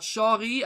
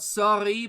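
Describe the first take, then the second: First: The word begins with an sh sound. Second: The word begins with a plain s sound. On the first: "they pronounce the s like the, the sh" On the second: "instead of s"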